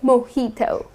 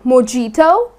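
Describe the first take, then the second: First: The J is not pronounced as a hard J. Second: The J is pronounced as a hard, stressed J. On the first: The speaker calls it right. "You're going to say mojito" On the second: The speaker calls it wrong. "putting stress on the J like mojito, that's incorrect"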